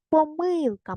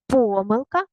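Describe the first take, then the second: First: Помилка with a long stressed middle syllable; stress on МИЛ. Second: Помилка with a long stressed first syllable. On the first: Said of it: "і так". (помилка з протяжним наголосом на МИЛ) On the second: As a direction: stretch ПО in Помилка. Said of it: "Можна і так". (Помилка з протяжним наголосом на ПО) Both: Shown as a demonstration.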